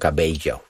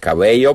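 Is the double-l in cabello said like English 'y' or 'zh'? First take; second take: zh; y. First: The double-l sounds like a zh sound. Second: The double-l sounds like an English y. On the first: "to mówią cabello. Wszystko u nich jest zi" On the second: "zamiast cabello mówić"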